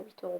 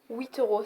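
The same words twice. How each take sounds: First: Said in the usual way. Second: Huit euros in a light mock banlieue street accent; a hint of a French street accent, half joking. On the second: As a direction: slip into a playful street accent from the Paris suburbs. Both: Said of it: "c'est quoi cet accent que j'ai pris?".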